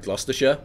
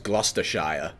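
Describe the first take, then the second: First: The ending 'shire' is reduced and unstressed. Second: The ending 'shire' is fully pronounced. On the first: The speaker calls it right. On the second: The speaker calls it wrong.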